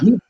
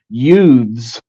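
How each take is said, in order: First: The final th sound is dropped. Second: The final th sound is carefully pronounced. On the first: The speaker calls it wrong. "Utes instead of youths" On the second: The speaker calls it right. "pronounces it"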